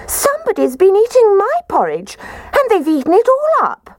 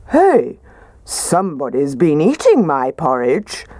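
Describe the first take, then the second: First: Much higher tiny bear squeak; squeaky Baby Bear. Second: Lightly gruffer papa bear voice; a hint of a gruff father bear; gruff Daddy Bear. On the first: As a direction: squeak it out like a little cub. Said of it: "Baby Bear positively squeaked". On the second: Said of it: "said in his gruff voice". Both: A narrator's reading.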